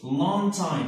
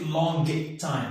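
First: The g is dropped and the words run together. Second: The g is pronounced, sounding heavy. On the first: The speaker calls it right. "ملي كنديروا لا ليزون نقولوا لون تايم" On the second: The speaker calls it wrong. "كتجي ثقيله"

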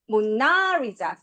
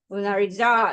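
First: The stress is on the second syllable. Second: The stress is on the fourth syllable. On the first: "두 번째" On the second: "네 번째"

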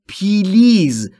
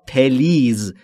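First: An extra 'ee' vowel separates the p and l. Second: An extra short 'e' vowel separates the p and l. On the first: "خیلی از زبان آموزا به اشتباه تلفظ میکنن پیلیز" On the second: "یا پلیز. این دو تلفظ اشتباهه"

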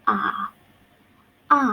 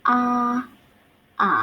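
The two takes are said the same way.

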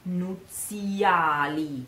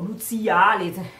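First: The middle vowel is heavily exaggerated. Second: The middle vowel is said without exaggeration. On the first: The speaker calls it wrong. "I am underlining a lot this E" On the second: The speaker calls it right. "you don't have to sing it like that. It's terrible"

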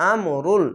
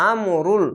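Both takes have the same delivery.

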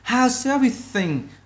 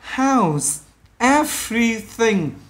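First: The words are linked together. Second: The words are said separately. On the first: "khi mình đọc nói vào nhau là how's everything" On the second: "Bình thường nó là how's everything"

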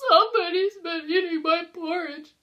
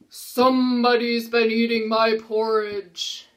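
First: It is said in Baby Bear's voice. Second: It is said in Papa Bear's voice.

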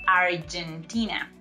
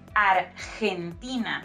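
First: The g sounds like a hard g. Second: The g sounds like an h. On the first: The speaker calls it wrong. "not Argentina" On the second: The speaker calls it right. "in Spanish sounds like H when it goes before letter E and letter I"

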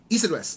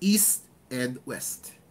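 First: The syllables are run together and mumbled. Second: Each syllable is said clearly and carefully. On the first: The speaker calls it wrong. "you cannot pronounce it like East and West" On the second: The speaker calls it right. "so you pronounce it like East and West"

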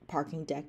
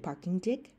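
First: The vowel in the second word is standard. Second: The second word's vowel sounds New Zealand-like. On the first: "Instead of saying like parking deck" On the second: "they'll say parking dick"

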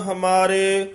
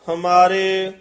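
No difference in how they are said.

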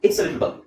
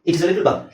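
First: It is is shortened to one syllable. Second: It is is said as two full words.

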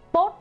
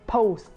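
First: The vowel is one steady single sound. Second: The vowel glides from one sound to another. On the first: The speaker calls it wrong. "không phải là một âm lẻ là post hay là như các mọi người hay đọc" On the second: The speaker calls it right. "âm o cặp âm và post"

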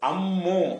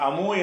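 First: The m sound is held long and doubled. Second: The m sound is short and single. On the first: The speaker calls it right. "அம்மு இம்மன்னா மூணாவா அதை படிக்கணும்" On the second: The speaker calls it wrong. "அந்த அமு என்று சொல்லாம"

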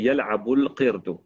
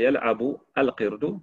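First: The verb links straight into the noun without 'a'. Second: The article 'al' is pronounced separately with its vowel. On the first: The speaker calls it right. "donc on dit yal'abul qirdu" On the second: The speaker calls it wrong. "On ne dit pas yal'abu al qirdu"

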